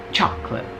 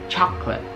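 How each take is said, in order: First: The word is said with two syllables. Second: The word is said with two syllables.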